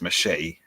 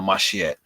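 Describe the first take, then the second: First: The word is said in an English accent. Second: The word is said in a Jamaican accent. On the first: "That's machete for the English people" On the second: "I'm gonna say it in a Jamaican way"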